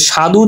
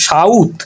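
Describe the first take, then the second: First: Said in the usual way. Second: সাউথ as shaudh with a u glide; inserted short u. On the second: Shown as a demonstration. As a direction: put u before the end consonant in সাউথ. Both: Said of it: "মাঝখানে কিন্তু রস্যকার চলে এসেছে".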